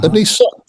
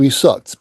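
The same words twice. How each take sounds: First: He said higher with a rising tune; he pitched up high, rising; stress on he. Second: Said in the usual way. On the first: Real, not acted. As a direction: lift the word he, then land on sucked.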